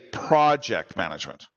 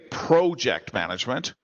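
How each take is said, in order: First: Project is said with an American pronunciation. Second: Project is said with a Canadian pronunciation. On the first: "Americans say project management" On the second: "Canadians say project management"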